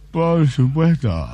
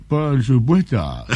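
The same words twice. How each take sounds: First: Drawn-out smug answer through a chuckle; slow Japanese man, laughing. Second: Drawn-out, unhurried answer as the famous Japanese lover; slow Japanese man. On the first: Japanese lover answering the interviewer again, slow with a chuckle. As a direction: stretch it out slowly, half laughing. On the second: Japanese record holder answering the interviewer, slow smug drawl. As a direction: savour each word, slow and smug. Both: Acted.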